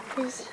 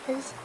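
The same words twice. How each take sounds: The two takes are said the same way.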